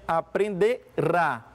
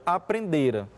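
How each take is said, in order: First: The stress falls on the final syllable. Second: The stress falls on the second-to-last syllable. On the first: It will happen in the future. "eles são tônicos" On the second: It happened before another past event. "Aqui é átono"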